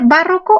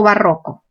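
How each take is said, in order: First: Barroco said as BÁ-rro-co; stress on first syllable. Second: Barroco said as ba-RRO-co; stress on RRO. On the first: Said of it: "¿cómo se dice?". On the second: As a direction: lean on the middle syllable of barroco. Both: Shown as a demonstration.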